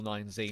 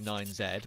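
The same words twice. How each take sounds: First: The letter Z is said as 'zee'. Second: The letter Z is said as 'zed'. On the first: This is the usual American way. "the American way of uh, pronouncing the letter" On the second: This is the British way. "Being from England, I very often want to call nine Z"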